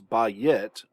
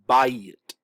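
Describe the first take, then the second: First: The word is split into two separate syllables. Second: The vowels glide together into one syllable. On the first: The speaker calls it wrong. "we don't want to pronounce this as ba-yit, keeping two syllables" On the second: The speaker calls it right. "We want to pronounce this as bayit"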